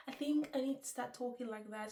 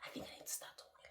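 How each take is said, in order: First: Said through a laugh. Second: Laughing whisper. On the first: Real, not acted. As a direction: laugh at yourself while saying it. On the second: Shown as a demonstration. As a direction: whisper it with a giggle, trying her soft style. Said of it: "very soft".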